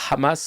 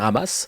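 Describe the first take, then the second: First: The first H is a breathy sound. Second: The first H is silent.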